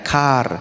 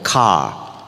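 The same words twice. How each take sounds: First: It is said the Indonesian way, with an R. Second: It is said the Western way, with no R.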